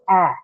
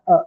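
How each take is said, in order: First: "a" said as the open vowel of cat. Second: "a" said as a schwa, "uh"; schwa sound. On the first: Teacher showing the changed first sound, "a" as in cat. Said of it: "The first sound changes to". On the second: Teacher showing the sound it is not, "a" as schwa "uh". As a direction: reduce "a" to a neutral "uh". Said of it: "not the schwa sound". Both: Shown as a demonstration.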